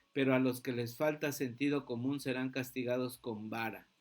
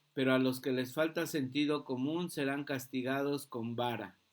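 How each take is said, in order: The two takes are said the same way.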